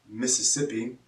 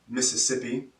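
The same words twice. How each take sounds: No difference in how they are said.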